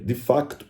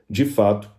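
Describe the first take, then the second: First: A k sound is heard before the t. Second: No k sound is heard before the t. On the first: This is how it is said in Portugal. "Assim que o lusitano diria" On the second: This is how it is said in Brazil. "O brasileiro falaria"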